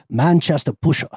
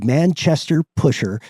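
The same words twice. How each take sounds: First: It is said in a British accent. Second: It is said in an American accent.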